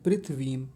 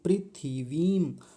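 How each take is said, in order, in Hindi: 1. 'th' और 'v' के बीच कोई स्वर नहीं है। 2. 'th' और 'v' के बीच एक छोटा 'i' स्वर सुनाई देता है।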